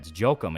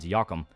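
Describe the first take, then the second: First: The name begins with a J sound. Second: The name begins with a Y sound. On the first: The speaker calls it wrong. "why are you calling it like that?" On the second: The speaker calls it right. "J in German is pronounced like a Y"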